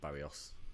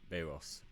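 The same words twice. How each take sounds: First: The r comes after the i, as Barrios. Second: The i comes before the r, as Bairros. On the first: The speaker calls it wrong. "not Barrios. ... I've been saying it wrong all this time" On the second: The speaker calls it right. "B A I R R O S"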